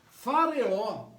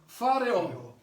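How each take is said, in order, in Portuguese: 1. A palavra começa com som de F. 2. A palavra começa com som de F.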